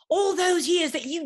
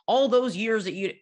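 First: It is said in an English accent. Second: It is said in the speaker's plain accent. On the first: The speaker calls it right. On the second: The speaker calls it wrong.

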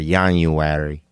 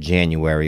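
First: It is said in a Mexican Spanish accent. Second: It is said in the speaker's plain accent.

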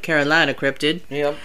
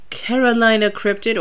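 First: It is said in a put-on regional accent. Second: It is said in the speaker's usual accent.

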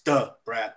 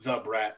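First: The first word starts with a 'd' sound. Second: The first word starts with a 'th' sound. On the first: The speaker calls it right. "you got to say it right. It's Da Brat" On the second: The speaker calls it wrong.

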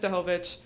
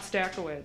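First: The surname is said in a Polish-sounding way. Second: The surname is said in an English-sounding way. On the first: The speaker calls it right. "mom is like from Poland, blah, and like she says Stachowicz" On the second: The speaker calls it wrong. "family's not even saying the name right. It's not Stackowitz"

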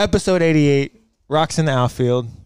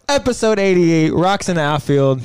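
First: The voice is flat and low in energy. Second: The voice is lively and high in energy. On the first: The speaker seems unhappy or deflated. The speaker calls it wrong. "you don't sound too happy" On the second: The speaker seems excited about the episode. The speaker calls it right. "More enthusiasm"

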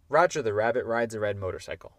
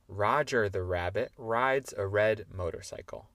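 First: The sentence is said at a very fast pace. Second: The sentence is said at a fast pace. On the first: "encore plus vite" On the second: "plus vite"

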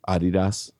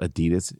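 First: The name is said the German, European way. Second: The name is said the usual American way. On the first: The speaker calls it right. "It's Adidas" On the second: The speaker calls it wrong. "Adidas is not Adidas"

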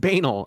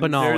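First: The word begins like the letter B. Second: The word does not begin like the letter B. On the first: The speaker calls it right. "It's the letter B and then anal" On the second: The speaker calls it wrong. "It's not banal"

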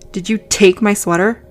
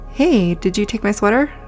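First: It is said in an accusing tone. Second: It is said in a calm tone.

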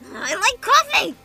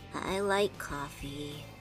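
First: It is said loudly. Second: It is said quietly, with a sigh.

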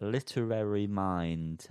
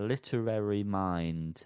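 First: Literary is enunciated with every syllable clear. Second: Literary is enunciated with every syllable clear.

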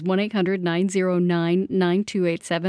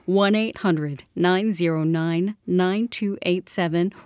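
First: The number is said at normal speed. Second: The number is said more slowly.

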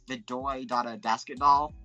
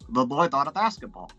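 First: The B sounds are replaced with D sounds. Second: The B sounds are pronounced as B sounds. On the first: "replacing B with D" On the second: "it sounds like the boy dot a basketball"

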